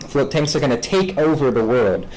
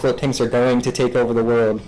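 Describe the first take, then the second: First: It is said grandly, like a sweeping vision. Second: It is said flatly, with weak emphasis. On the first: The claim is an ambitious vision. "it's much more of like a grand vision" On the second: The claim is unremarkable. "there's like weaker words I could choose"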